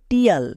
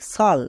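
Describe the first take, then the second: First: The ending starts with a t sound. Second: The ending starts with an sh sound. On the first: The speaker calls it wrong. "একে অনেকে উচ্চারণ করে টিয়াল, কিন্তু এটা সম্পূর্ণ ভুল উচ্চারণ" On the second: The speaker calls it right. "এর উচ্চারণ হয় সাল"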